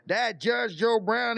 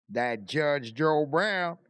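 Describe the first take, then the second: First: Said in the usual way. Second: Slow, lower drawn-out "Brown" in a lightly put-on Southern accent; a hint of Judge Joe Brown's drawl, slow and low; mimicking Judge Joe Brown. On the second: Telling friends about a TV judge, lightly imitating his accent slowly. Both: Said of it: "strongest accent I ever seen".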